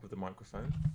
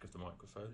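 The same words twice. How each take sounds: First: The voice sounds fairly full but not brilliant. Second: The voice sounds quiet, flat and tinny. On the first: "which is okay" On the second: "where it goes very quiet and all very flat and tinny"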